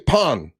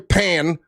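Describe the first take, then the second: First: The name is said with a standard vowel. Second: The name is said with a Southern-sounding vowel. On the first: The speaker calls it right. "Say Pun" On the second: The speaker calls it wrong. "don't say Choi Pan, like you're from the South"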